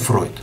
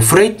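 First: The name is said in the original German form. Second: The name is said in the customary Russian form. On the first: This is how the name really sounds. "но вообще он Фройд" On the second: This is the form commonly used in Russian. "У нас принято называть его Фрейд"

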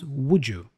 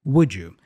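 First: The d and y blend into a j sound. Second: The same.

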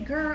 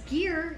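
First: The name rhymes with 'fur'. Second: The name rhymes with 'fear'. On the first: The speaker calls it wrong. "don't say Gurr on Instagram" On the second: The speaker calls it right. "It's Gear"

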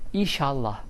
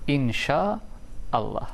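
First: The two parts merge into a shortened word. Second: Both parts are kept, with 'Allah' in full. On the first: The speaker calls it wrong. "İnşallah değil" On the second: The speaker calls it right. "Doğrusunu söylüyorum"

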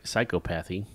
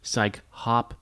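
First: The middle is said as 'cop', like the usual word. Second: The middle is said as 'hop', a separate syllable. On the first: The speaker calls it wrong. "It looks like psychopathy" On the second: The speaker calls it right. "It's psychopathy"

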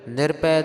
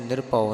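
First: The word ends with an 'ai' vowel. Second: The word ends with an 'au' vowel. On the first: The speaker calls it right. "ਨਿਰਭੈ ਦੇ ਵਿੱਚ ਭੱਬੇ ਨੂੰ ਦੁਲਾਵਾਂ ਹਨ" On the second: The speaker calls it wrong. "ਕਿਸੇ ਨੇ ਨਿਰਭਉ ਨਹੀਂ ਕਰ ਦੇਣਾ"

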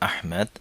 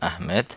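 The two takes are said the same way.

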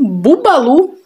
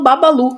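First: The first vowel sounds like 'u'. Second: The first vowel sounds like 'a'. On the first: This is how the brand writes it. "Aí o Boticário vem com Bubalu" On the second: This is how the speaker has always said it. "Até hoje eu falo Babalu"

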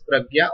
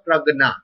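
First: The middle cluster sounds like 'gy'. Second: The middle cluster sounds like 'gn'. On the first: "It can be pronounced as pragya or pragna" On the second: "It can be pronounced as pragya or pragna"

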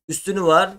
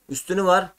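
No difference in how they are said.

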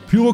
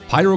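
First: Pyro is pronounced the German way. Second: Pyro is pronounced the English way. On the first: This sounds normal and natural. The speaker calls it right. "Pyro klingt für mich normal" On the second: This sounds like showing off one's English. The speaker calls it wrong. "als würde ich jetzt überkompensieren mit irgendwelchen Englischkenntnissen"

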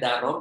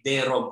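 First: The first vowel is a full 'a'. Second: The first vowel is reduced to 'e'. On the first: The speaker calls it wrong. "bukan bacanya darom" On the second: The speaker calls it right. "tapi derom"

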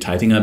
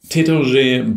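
First: The name is pronounced with German sounds. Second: The name is pronounced without German sounds. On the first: This is how Germans say the name. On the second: This is how the name is said outside Germany.

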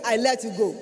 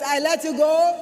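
First: It is said at a normal volume. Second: It is said at a louder volume. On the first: "Say me" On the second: "Louder yet"

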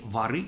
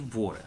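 First: The stress is on the last syllable. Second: The stress is on the first syllable. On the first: This is the southern dialect form. "смещение ударения на окончании" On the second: This is the standard form. "вместо «воры»"

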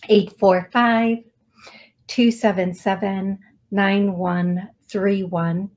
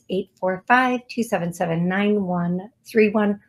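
First: The number is said at a slower pace. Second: The number is said at a faster pace.

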